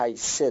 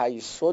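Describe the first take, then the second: First: حیثه ending in a short "e", "hayse"; variant ending in e. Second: حیثو ending in an "o/u" vowel, "hayso"; variant ending in u. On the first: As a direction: end حیثه on an unrounded vowel, not "o". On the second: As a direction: end حیثو on a rounded damma vowel. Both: Shown as a demonstration. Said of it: "حیثو دو جور تلفظ داره".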